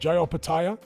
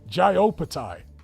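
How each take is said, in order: First: The name ends with a final 'ya' sound. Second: The name ends without a final 'a' sound. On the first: The speaker calls it right. "There's an A on the end" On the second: The speaker calls it wrong. "Why are you saying Opatai?"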